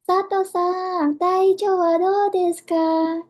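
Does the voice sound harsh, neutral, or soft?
soft. It is spoken in a very soft, limp voice. "kadang mereka lembek-lembekkan"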